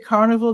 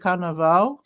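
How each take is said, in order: First: The last syllable sounds like 'vul'. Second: The last syllable sounds like 'vahl'. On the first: This is the way the locals do not say it. "They don't say carnival" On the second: This is the way the locals say it. "they say carnaval"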